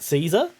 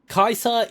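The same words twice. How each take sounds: First: The name uses a non-Latin pronunciation. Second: The name uses the classical Latin pronunciation. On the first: The person saying it does not support the Legion. The speaker calls it wrong. "not Caesar" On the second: The person saying it supports the Legion. The speaker calls it right. "the correct classical Latin Latin pronunciation for the name"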